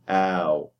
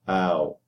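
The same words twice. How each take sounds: First: The diphthong starts with a fronter vowel. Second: The same.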